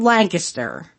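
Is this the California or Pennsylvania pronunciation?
Pennsylvania. It is said the Pennsylvania way.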